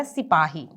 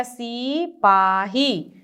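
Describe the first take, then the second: First: सिपाही said as "si-paa-hee", short i; short first vowel. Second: सिपाही drawn out as "seee-paa-hee"; wrong long vowel. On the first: Teacher correcting the spelling, सिपाही with a short "si". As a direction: keep the si of सिपाही quick and light. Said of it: "सिपाही हम बोलते हैं". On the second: Teacher showing the wrong spelling, सिपाही with a long slow "see". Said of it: "नहीं, क्या होता है?". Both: Shown as a demonstration.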